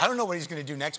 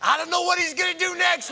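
First: It is said in a worried, anxious tone. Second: It is said in an excited, thrilled tone. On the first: The unpredictability is frightening. "The thing that's terrifying" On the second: The unpredictability is thrilling. "I think their tone is different"

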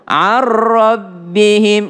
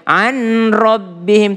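First: The n merges into the following r sound. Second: The n is pronounced before the r sound. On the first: The speaker calls it right. "Nun ketemu ra melebur" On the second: The speaker calls it wrong. "nggak boleh"

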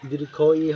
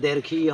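First: The first word is said like 'dirgho'. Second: The first word is said like 'derkhi'. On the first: The speaker calls it right. "দীর্ঘ ই হবে" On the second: The speaker calls it wrong. "এটা দেরখি ই হবে না"

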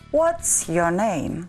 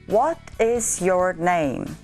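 First: The words what and is merge into what's. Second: The words what and is are said separately.

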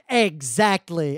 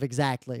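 First: Every vowel is said fully and strongly. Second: The weak vowels are reduced to schwa. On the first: "you'll say the syllables, and the vowel syllables at least, very strongly" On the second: "instead of making a schwa"

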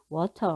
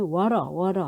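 First: The t is pronounced as a clear t. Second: The t becomes a soft r-like flap. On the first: "영국은 워터 그러니까 티 발음을 명확하게 해주는데" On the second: "미국에서는 워러 하죠"

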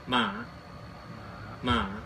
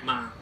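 First: The pitch dips down and then comes back up. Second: The pitch drops low and is cut off abruptly. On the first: "长得很像问号的，它就念妈妈" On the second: "下面有一点，念妈"

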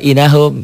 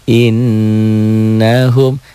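First: The n is single, short and not nasalized. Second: The n is doubled, nasalized and held. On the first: The speaker calls it wrong. "Dia baca innahum gitu. Jadi suka kebalik-balik" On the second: The speaker calls it right. "ada sidah. Harusnya kan innahum"

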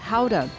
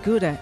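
First: It is pronounced the Dutch way. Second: It is pronounced the usual English way.

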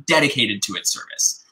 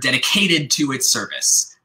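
First: The stress falls on the first syllable 'ded'. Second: The stress falls on the 'cat' syllable. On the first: The speaker calls it right. "but it should be" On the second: The speaker calls it wrong. "because K is on the downbeat"

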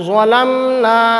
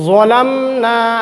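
No difference in how they are said.

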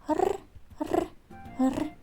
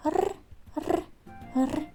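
First: The growl sounds cheerful and lively. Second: The same.

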